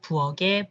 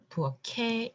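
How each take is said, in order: First: The final consonant carries over as a g sound. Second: The final consonant carries over as a k sound. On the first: The speaker calls it wrong. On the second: The speaker calls it right. "This is just a normal liaison"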